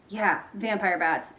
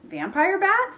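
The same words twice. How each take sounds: First: Matter-of-fact confirmation. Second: High-pitched, rising disbelief; startled question. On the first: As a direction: confirm it slowly, without surprise. Ivy calmly confirms to Bean. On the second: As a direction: echo it back as an alarmed question. Bean startled by Ivy's claim. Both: A narrator's reading.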